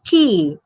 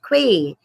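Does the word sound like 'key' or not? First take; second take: key; not key. First: The word sounds exactly like 'key'. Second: The word does not sound like 'key'. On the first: The speaker calls it right. "it's key" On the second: The speaker calls it wrong. "It's not quay"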